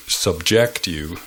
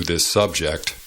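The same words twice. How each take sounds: First: Subject as sub-JECT, the verb; stress on second syllable. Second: Subject as SUB-ject, the noun; stress on first syllable. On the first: Teacher jokes to learners with the verb, subject stressed on second syllable. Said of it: "emphasizing the second syllable". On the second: Teacher jokes to learners with the noun, subject stressed on first syllable. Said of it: "emphasizing the first syllable". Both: Shown as a demonstration.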